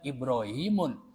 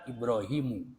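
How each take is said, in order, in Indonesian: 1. Kata ini berakhir dengan bunyi n tambahan. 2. Kata ini berakhir dengan vokal tanpa n. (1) "nggak boleh menyebutkan" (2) "Yang benar"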